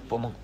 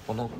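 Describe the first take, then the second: No difference in how they are said.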